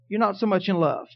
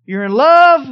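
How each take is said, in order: First: Said in the usual way. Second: You're in love, much louder and higher. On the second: Shown as a demonstration. Preacher charting marriage love, loud and high peak. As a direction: belt out the high point of the graph. Graphing love level demo.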